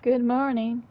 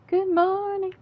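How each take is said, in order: First: Said in the usual way. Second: Sung-out high good morning; high silly greeting. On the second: Acted. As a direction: greet in a high, loud cartoon voice. Repeated greeting, second take changed.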